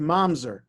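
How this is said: It is pronounced with a Yiddish accent. "if I pronounced it in the Yiddish way, it would be"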